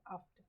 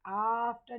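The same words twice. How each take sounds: First: आफ्टर with a quick, short first vowel. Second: आफ्टर with the first "aa" stretched out; wrong long vowel. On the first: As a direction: clip the opening vowel of आफ्टर, softer and lower. (आफ्टर का पहला स्वर छोटा, धीमी आवाज़ में) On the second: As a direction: drag the opening vowel of आफ्टर, loudly. (आफ्टर का आ लंबा खींचकर) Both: Shown as a demonstration. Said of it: "आफ्टर नहीं बोल रहे हम".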